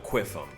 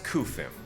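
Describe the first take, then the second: First: It begins with a kw sound. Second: It begins with a plain k sound. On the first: The speaker calls it wrong. "That ain't no Quiffum" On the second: The speaker calls it right. "that's Kufim"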